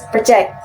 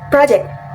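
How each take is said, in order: First: The stress is on the second syllable. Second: The stress is on the first syllable. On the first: The speaker calls it right. "the right pronunciation is project" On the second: The speaker calls it wrong. "because I said project. The word stress ... is on the first syllable"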